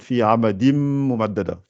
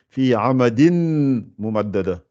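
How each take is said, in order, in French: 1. Le n se fond en un son m doublé. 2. Le mot avant mumaddada se termine par un son n. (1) "Ne dites pas fi amadin avec N. Dites fi amadim mumaddada" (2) "Si je lis en arabe ... j'ai fait fi amadin mumaddada"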